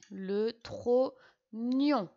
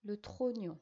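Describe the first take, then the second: First: "Le trognon" stretched very slowly, each syllable set apart and loud; teacher drawing out "trognon" syllable by syllable. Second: Said in the usual way. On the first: Shown as a demonstration. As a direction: spell out "trognon" slowly for the dictation, tro then gnon. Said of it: "G N pour faire gne". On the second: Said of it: "et O N pour faire nion".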